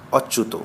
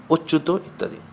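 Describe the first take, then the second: First: অচ্যুত with an open aw sound, ɔchut; open vowel take. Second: অচ্যুত said ochut with a rounded closed o; closed o take. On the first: Teacher shows the open-vowel reading of অচ্যুত first, open ɔ. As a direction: say অচ্যুত starting on a wide open ɔ. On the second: Teacher gives the correct closed-o reading of অচ্যুত, rounded o. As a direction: start অচ্যুত on a tight o, like ওচ্যুত. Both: Shown as a demonstration. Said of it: "চিহ্নিত নিয়মের ব্যতিক্রম।".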